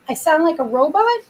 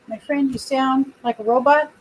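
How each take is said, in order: First: Disbelieving, repeating the remark; puzzled question. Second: Said in the usual way. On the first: Real, not acted. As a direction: echo it with a puzzled rise. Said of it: "I do?".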